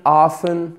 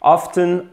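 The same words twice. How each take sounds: First: "often" with no t sound; silent T. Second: "Often" with the t sounded; audible t in the middle of "Often"; T pronounced. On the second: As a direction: say "Often" as "off-ten". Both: Shown as a demonstration. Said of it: "comme vous voulez".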